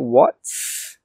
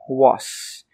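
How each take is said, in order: First: The T sound is clearly pronounced. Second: The T sound is left out. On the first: "we don't say what's" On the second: "we say was. We don't actually say that T sound"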